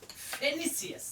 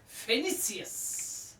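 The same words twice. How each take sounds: First: It is said at normal speed. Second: It is said slowly.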